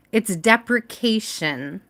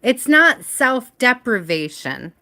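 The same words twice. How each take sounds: First: Deprecation, said slowly and carefully as the fix; deprecation, a careful slow correction; correct word. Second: Self-deprivation, said as the mistaken word; self-deprivation as the error before the fix; wrong word. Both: Shown as a demonstration.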